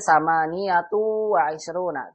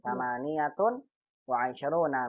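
First: The final n merges nasally into the following w. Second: The final n is pronounced clearly before w. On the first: The speaker calls it wrong. "Kita tidak boleh membaca ini sama niyatu wa isruna. ... Idgham bi gunnah. Tidak" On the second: The speaker calls it right. "sama niyatun harus bertanwin"

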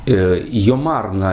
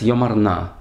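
First: Stress on second syllable of yomar; na unstressed. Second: Stress on first syllable of yomar and on na. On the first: "это обычное произношение, обычное ударение" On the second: "в псалме лучше сказать йомарна, то есть ударение на, просительная частица на"

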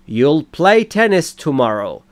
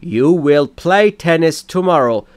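First: 'You will' is shortened to one syllable. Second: 'You will' is said as two full words.

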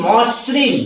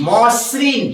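The two takes are said the same way.

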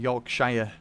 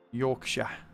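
First: The word is said in an American accent. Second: The word is said in a British accent.

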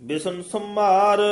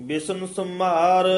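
Both takes have the same delivery.

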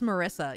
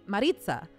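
First: The middle consonant is a plain s sound. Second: The middle consonant is a ts sound. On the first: This is how the owner of the name says it. "I would not be like, it's Marissa" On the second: This is how people in another country say the name. "when I was in Italy, people called me Maritza"

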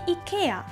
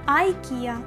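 First: It is said the British English way. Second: It is said the American English way. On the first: "ми вимовляємо як британці" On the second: "за океаном кажуть по-своєму"

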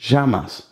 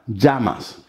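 First: The ll sounds like sh, Argentine style. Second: The ll sounds like a soft j.

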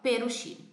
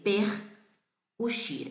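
First: The two words run together without a break. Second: The two words are said with a break. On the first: The speaker calls it right. "Unindo consoante e vogal, uma única coisa" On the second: The speaker calls it wrong. "Não vamos dizer per uxire"

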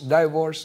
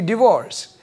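First: It is said with the local Singaporean pronunciation. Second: It is said with the standard American/British pronunciation. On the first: The speaker calls it wrong. "Last week I've been saying divorce" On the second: The speaker calls it right. "It should be divorce, whether it's American or UK"

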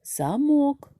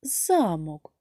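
First: The stress is on the second syllable. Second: The stress is on the first syllable. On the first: "головний склад «мок»" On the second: "головний склад «за»"

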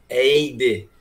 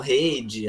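First: The name starts without an H sound. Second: The name starts with an H sound. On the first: The speaker calls it right. "É como se não tivesse o H" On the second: The speaker calls it wrong. "já 10 anos já escutando tudo errado já"

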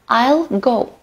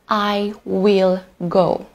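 First: Will is contracted into I'll. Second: Will is said in full. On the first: "Next is contraction" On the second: "Instead of saying that"

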